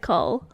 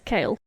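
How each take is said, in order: First: The name is said with an 'oh' vowel. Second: The name is said with an 'ay' vowel. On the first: The speaker calls it wrong. "The first time I read it, I said Cole" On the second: The speaker calls it right. "but it's Kale"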